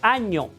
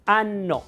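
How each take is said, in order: First: The middle consonant is a palatal ny sound. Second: The middle consonant is a long double n. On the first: "nosotros decimos año" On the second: "originalmente en latín, igual en italiano, suena como, ¿no? Como un poco gangoso"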